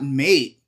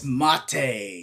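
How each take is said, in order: First: It is said as one syllable, rhyming with late. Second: It is said as two syllables, like mah-tay. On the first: It means a friend. The speaker calls it wrong. "it's actually not mate" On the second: It means the yerba mate drink. The speaker calls it right. "It's mate"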